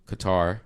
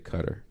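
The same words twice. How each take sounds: First: It is said with a native-like pronunciation. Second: It is said with an anglicized pronunciation. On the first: The speaker calls it right. "That's how you say Qatar" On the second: The speaker calls it wrong. "You don't say Qatar. Goodness gracious, don't be so ethnocentric"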